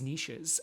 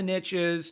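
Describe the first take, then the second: First: The word does not rhyme with riches. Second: The word rhymes with riches. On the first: The speaker calls it right. "I think the pr- proper pronunciation is niches" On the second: The speaker calls it wrong. "You've heard the expression "riches are in the niches,""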